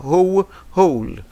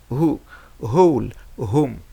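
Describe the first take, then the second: First: "Who, whole" slow, no w sound; slow model reading. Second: "whole, whom" said slowly with h only; slow model reading. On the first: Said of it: "Rappelez-vous". (lecture lente de who, whole) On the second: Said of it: "Donc, on a who". (lecture lente de whole, whom) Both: Shown as a demonstration.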